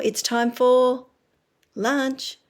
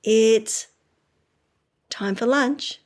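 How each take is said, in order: First: Put-on sing-song slow cue to a child; slow, drawn out. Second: Said in the usual way. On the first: Shown as a demonstration. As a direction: stretch each word out for a toddler.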